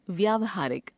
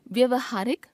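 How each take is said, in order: First: Said in the usual way. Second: व्यवहारिक with short first a, "vyuvahaarik"; wrong pronunciation. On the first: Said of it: "शुद्ध". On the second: Shown as a demonstration. Teacher showing a common error, व्यवहारिक begun with short vowel. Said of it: "अशुद्ध".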